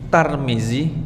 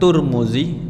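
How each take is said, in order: First: The first syllable has the vowel a. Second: The first syllable has the vowel u.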